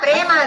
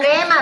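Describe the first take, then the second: No difference in how they are said.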